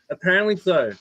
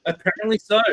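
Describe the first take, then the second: First: Said in the usual way. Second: Apparently so said through a laugh. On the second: Real, not acted. Telling friends police came over swearing, laughing.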